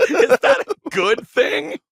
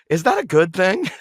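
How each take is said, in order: First: Much higher, slow, laughing rocker-singer voice. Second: Said in the usual way. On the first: Retold or imitated. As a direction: ham up the rock singer, dragging it out with a laugh. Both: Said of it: "Sounded like [name]".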